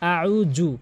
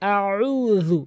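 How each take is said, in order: First: The middle consonant is a j sound. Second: The middle consonant is a th sound. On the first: The speaker calls it wrong. "অধিকাংশ লোক আউ জু বলে" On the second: The speaker calls it right. "জিহ্বার আগা এবং দাঁতের আগার সঙ্গে লাগিয়ে"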